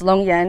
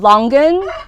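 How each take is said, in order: First: It is said with a y sound before -an. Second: It is said as the romanized spelling reads. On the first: This is how the speaker's family says it. "we pronounce it Longyan" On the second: This is the standard romanized form. "the Romanized way is Longan"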